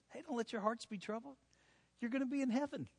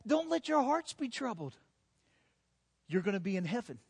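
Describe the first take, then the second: First: Softer, offhand hey, don't worry; casual reassurance. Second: Firm, sure comfort; confident reassurance. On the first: Jesus reassuring his friends, softly and casually. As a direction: toss it off gently, like a friend. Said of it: "that's literally what Jesus is saying". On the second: Jesus comforting his worried disciples, confidently. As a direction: say it with full confidence. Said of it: "Jesus says with all confidence". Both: Acted.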